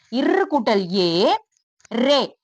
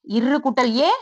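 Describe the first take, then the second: First: இர் கூட்டல் ஏ drawn out slowly, syllable by syllable; slow spelling out. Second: Said in the usual way. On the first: Shown as a demonstration. Teacher spelling out a letter slowly for young pupils. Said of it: "slow spelling-out demo". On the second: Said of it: "normal-pace repeat".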